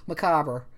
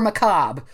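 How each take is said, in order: First: An extra vowel sound is inserted near the end. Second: No extra vowel sound is inserted near the end. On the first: "I apenthesize it and say macabre" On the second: "Or macabre. I go either way"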